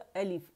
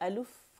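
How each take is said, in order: First: The second syllable has an 'i' vowel. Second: The second syllable has a 'u' vowel. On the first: The speaker calls it right. "अक़सुल हल्क से हमज़ा अदा होगा" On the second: The speaker calls it wrong. "या अलुफ करके नहीं पढ़ना।"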